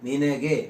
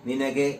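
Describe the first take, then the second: The two takes are said the same way.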